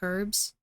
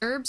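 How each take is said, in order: First: The word starts with an audible H sound. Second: The word starts without an H sound. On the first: "Because the H is there, right? So wouldn't it be herbs?" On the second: "why is the H silent?"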